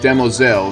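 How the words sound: The word is said with a French-sounding pronunciation. The speaker calls it right. "it is pronounced Demoiselle, It's meant to be said with a French undertone"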